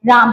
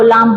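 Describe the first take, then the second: First: Said in the usual way. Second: लाम, R replaced by L; child's lisp. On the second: Shown as a demonstration. Teacher recalls the lisping example, L-for-R लाम. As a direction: say राम as लाम, with L up front. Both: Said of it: "देखा lisping में".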